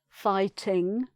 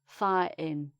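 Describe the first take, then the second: First: The T and the final G are both pronounced. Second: A glottal stop replaces the T, final G dropped. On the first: "in the south" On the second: "The glottal stop again ... the G sound is missed off"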